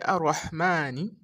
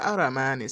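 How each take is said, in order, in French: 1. Un r double suivi d'un son h. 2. Un seul r bref, sans son h. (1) "c'est Arrahmani et non Aramani" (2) "ce n'est pas Aramani"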